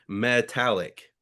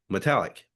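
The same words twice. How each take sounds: First: The first vowel is pronounced fully and clearly. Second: The first vowel is quick and barely pronounced. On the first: The speaker calls it wrong. "If we were to pronounce metallic as it's as it's written, you know, letter by letter" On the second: The speaker calls it right. "We say metallic because it's, it's very like, glossed over"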